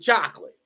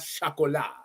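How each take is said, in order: First: It is pronounced the plain English way. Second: It is pronounced the French way. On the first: The speaker calls it right. "We do chocolate" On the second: The speaker calls it wrong. "not chocolat"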